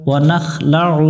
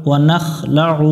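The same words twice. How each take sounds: No difference in how they are said.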